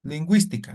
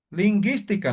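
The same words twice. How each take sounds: First: "lingüística" with a sounded w, like gwi; u pronounced in GÜI. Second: "Lingüística" said "linguistica" with hard g and no w, like ghee; silent u in GUI. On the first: Teacher reading the word with diéresis, u pronounced in "lingüística". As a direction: say "lingüística" with the u clearly heard. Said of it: "esta U lleva diéresis". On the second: Teacher showing the word without diéresis, silent u in "Lingüística". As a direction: drop the u sound in "Lingüística", saying "lin-ghee-stica". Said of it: "Si pongo así solamente la U". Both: Shown as a demonstration.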